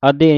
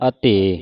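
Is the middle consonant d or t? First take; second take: d; t. First: The middle consonant is a voiced d. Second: The middle consonant is a voiceless t. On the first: The speaker calls it wrong. "ਅਦੇ ਨਹੀਂ ਕਹਿਣਾ" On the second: The speaker calls it right. "ਐੜਾ ਸੰਬੰਧਕ ਲਾ ਕੇ ਅਤੇ ਹੈ"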